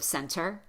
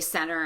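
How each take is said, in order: First: The T after the N is fully pronounced. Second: The T after the N is dropped. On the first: "instead of center" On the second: "I hear other Americans say center"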